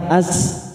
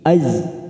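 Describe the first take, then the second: First: The syllable ends with a hissing s sound. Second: The syllable ends with a buzzing z sound. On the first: The speaker calls it wrong. "jangan sampai as" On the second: The speaker calls it right. "tapi az"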